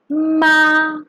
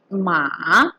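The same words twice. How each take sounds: First: The pitch stays high and level. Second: The pitch rises from middle to high. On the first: "First tone. It has the highest pitch" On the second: "also known as the rising tone"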